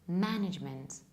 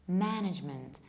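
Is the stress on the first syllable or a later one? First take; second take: first; first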